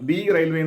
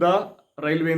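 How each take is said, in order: First: 'The' is said long, like 'thee'. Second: 'The' is said short, like 'thuh'. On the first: The speaker calls it wrong. "ദി railway എന്ന് പറയാൻ പാടില്ല" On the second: The speaker calls it right. "ദ railway എന്ന് അതുകൊണ്ട് പറയണം"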